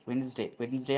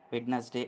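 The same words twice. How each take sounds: First: వెడ్నెస్డే said as "wens-day", the d dropped; వెడ్నెస్డే spoken "wens-day" with a silent d; Wensday, no d. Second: వెడ్నెస్డే said in three syllables, "wed-nes-day"; వెడ్నెస్డే spelled out in speech as "wed-nes-day"; Wed-nes-day in full. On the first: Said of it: "అని పలకాలి". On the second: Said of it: "అని కూడా చెప్పవచ్చు". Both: Shown as a demonstration.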